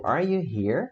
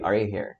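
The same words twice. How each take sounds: First: "Are you here?" with pitch swinging up at the end; question intonation. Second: "Are you here?" falling low like a statement; statement intonation. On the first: Teacher showing students a question, rising intonation on "here". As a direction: lift "here" into a clear question. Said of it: "a entonação é de uma pergunta". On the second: Teacher contrasting with a question, falling statement tune on "here". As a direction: drop "here" down, asserting rather than asking. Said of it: "Aqui eu tô afirmando agora". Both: Shown as a demonstration.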